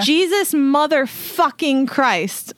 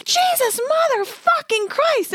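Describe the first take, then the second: First: Mild mock yell, raised in pitch; a held-back re-enactment of yelling, drawn out on the curse; retold yell. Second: Very high-pitched mock scream at contained volume; retold scream. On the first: Telling the co-host what was yelled in the neighborhood, mock yell. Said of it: "I yell at the top of my lungs". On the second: Reliving the shock of kicking a bird, high mock scream. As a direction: re-enact a shocked shriek, stretched out slowly. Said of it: "at the top of my lungs".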